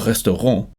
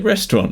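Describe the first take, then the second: First: It is pronounced the French way. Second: It is pronounced the anglicized English way. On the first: The speaker calls it wrong. "you don't say, I'm hungry, I'm going to le restaurant" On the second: The speaker calls it right. "You say restaurant"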